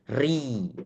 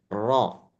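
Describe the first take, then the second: First: The r is thin with a clearer, longer trill. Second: The r is thick with a single tap. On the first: "kalau tipis ... Getarannya lebih terdengar jelas" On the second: "saat dia dibaca tebal, baca tafkhim itu hanya sekali getarannya"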